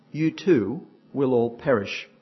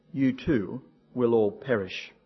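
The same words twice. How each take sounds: The two takes are said the same way.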